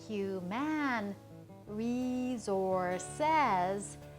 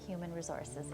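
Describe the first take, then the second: First: The first syllable of resources has a full vowel. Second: The first syllable of resources is reduced. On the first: The speaker calls it wrong. "it often sounds kind of unusual for people" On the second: The speaker calls it right. "they're going to say human resources in that way"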